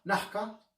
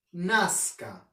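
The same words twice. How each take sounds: First: "Nazca." said as "naka", no s; dropped s. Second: "Nazca." said with a clear s, "naska"; full s. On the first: Teacher imitating a speaker who drops the s. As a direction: swallow the s in "Nazca.". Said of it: "¿Vas a ir a Nazca?". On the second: Teacher giving the standard form for contrast. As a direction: keep the s in "Nazca." crisp. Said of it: "variación de sonido". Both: Shown as a demonstration.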